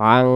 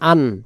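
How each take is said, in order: First: The word ends in a hidden nasal hum. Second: The word ends in a clear n sound. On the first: The next letter hides the n sound. "অনুষ্কারের মতো উচ্চারণ হবে" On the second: No hiding letter follows. "তখন উচ্চারণ হতো আন"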